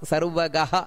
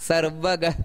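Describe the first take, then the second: First: The word ends with an echoing breathy 'ha' sound. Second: The word ends plainly with no breathy ending.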